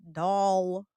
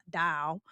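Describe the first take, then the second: First: "doll" held with a rounded aw vowel; careful pronunciation. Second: "doll" with an open, country ah vowel; country pronunciation. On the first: Host corrects own country speech, careful rounded "doll". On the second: Host laughs at being so country, open-vowelled "doll". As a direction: let "doll" open out to "dahl". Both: Shown as a demonstration. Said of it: "Y'all, I'm so country".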